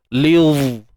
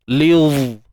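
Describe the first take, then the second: First: The heavy dha sound comes in at once. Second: The same.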